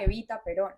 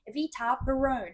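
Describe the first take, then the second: First: The name is said with a Spanish pronunciation. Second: The name is said with an English pronunciation. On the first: The speaker calls it right. "it was" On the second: The speaker calls it wrong. "it wasn't"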